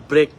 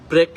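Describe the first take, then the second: Both takes have the same delivery.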